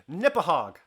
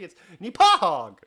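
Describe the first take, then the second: First: The stress is on the first syllable. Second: The stress is on the second syllable.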